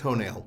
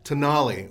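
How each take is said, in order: First: It is said with English vowels. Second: It is said with Italian vowels. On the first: The speaker calls it wrong. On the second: The speaker calls it right.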